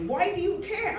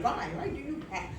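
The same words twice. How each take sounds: First: Said in the usual way. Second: Put-on softer, lightly French-accented question; attempted French accent. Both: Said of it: "I wish he could do the French".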